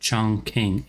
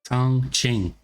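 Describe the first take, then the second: First: The second syllable begins with a k sound. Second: The second syllable begins with a ch sound. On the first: This is how the game says the name. The speaker calls it wrong. "it's pronounced Chong King in the game" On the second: This is how the name is really said. The speaker calls it right. "according to Osh, it's pronounced Chong Ching"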